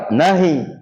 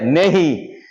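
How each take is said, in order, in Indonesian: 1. Vokal pertama terdengar seperti 'a'. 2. Vokal pertama terdengar seperti 'e'. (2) "Orang India nehi"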